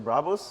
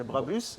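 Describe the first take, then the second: First: It is said with a German accent. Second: It is said with a French accent. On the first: "in Germany you say Brabus" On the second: "in France they say Brabus"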